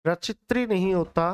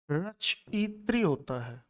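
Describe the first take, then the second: First: रचित्री said as the rejected form; wrong form named. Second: रचयित्री said slowly and carefully, with the added या; slow down on रचयित्री to model it; slow correct form. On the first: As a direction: say रचित्री to show the mistake. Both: Shown as a demonstration.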